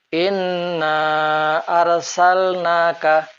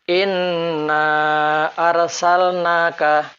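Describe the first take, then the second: Both takes have the same delivery.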